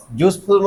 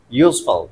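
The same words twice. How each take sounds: First: Full "ful" sound ending यूजफुल; wrong pronunciation. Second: Said in the usual way. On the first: Shown as a demonstration. Teacher warning class against a mispronunciation, यूजफुल said with full "phool". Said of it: "मत कहना". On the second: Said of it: "यूजफुल मत कहना".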